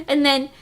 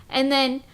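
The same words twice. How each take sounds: Both takes have the same delivery.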